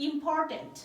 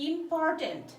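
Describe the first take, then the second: Both takes have the same delivery.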